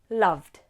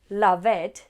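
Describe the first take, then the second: First: The ending is a single d sound. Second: The ending is an extra syllable. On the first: The speaker calls it right. "It's love, loved" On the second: The speaker calls it wrong. "It's not love, loved"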